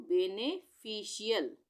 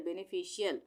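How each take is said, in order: First: बेनिफिशियल slowly, in separated parts; broken into syllables. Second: Said in the usual way. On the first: Shown as a demonstration. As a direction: sound out बेनिफिशियल part by part. Teacher joins spelled parts of word. (बेनिफिशियल को धीरे-धीरे तोड़कर)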